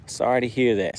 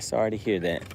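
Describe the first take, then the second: First: Said in the usual way. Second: Softer, lower sorry; sincere condolence. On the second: Real, not acted. Streamer repeating his condolence to a widow, softer and sincere. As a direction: drop your voice and mean it.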